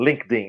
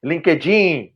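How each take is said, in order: First: Said in the usual way. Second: LinkedIn with an added vowel, "lin-keh-JEEN"; Brazilianized pronunciation. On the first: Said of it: "não LinkedIn". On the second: Shown as a demonstration. Podcast guest shows how Brazilians reshape the word, Brazilianized LinkedIn. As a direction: say LinkedIn in three Brazilian syllables. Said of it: "a brasileirar as palavras".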